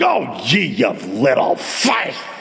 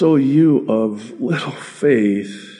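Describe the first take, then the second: First: It is said with a scornful, disgusted tone. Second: It is said with a gentle, pitying tone. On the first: The listeners are being scolded. The speaker calls it wrong. "Never imagine the Savior saying" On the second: The listeners are pitied with affection. The speaker calls it right. "it's just a loving, almost a, I want to say a he pitied them"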